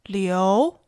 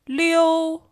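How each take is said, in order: First: The pitch rises from mid to high. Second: The pitch stays high and level.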